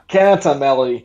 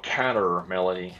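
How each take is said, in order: First: It is said with an Australian accent. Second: It is said without an Australian accent. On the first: "my Australian accent comes all the way out" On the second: "As opposed to a counter melody"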